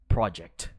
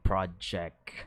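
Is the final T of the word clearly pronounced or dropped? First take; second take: pronounced; dropped. First: The final T sound is clearly pronounced. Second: The final T sound is weak or dropped. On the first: "Gotta emphasize that T" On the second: "I'm saying project"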